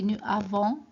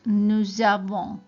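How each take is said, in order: First: The two words are said separately, without linking. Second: The two words are linked into one sound. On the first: The speaker calls it wrong. "We don't say nous avons. It doesn't sound right" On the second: The speaker calls it right. "so we put it together like nous avons"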